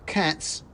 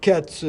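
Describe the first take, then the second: First: Higher squeaky correction; correcting mouse. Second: Higher, louder squeak; a second tiny voice backing him up; other mouse agreeing. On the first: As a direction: point out the mistake curtly. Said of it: "corrected the mouse". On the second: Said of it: "said the other". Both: Acted.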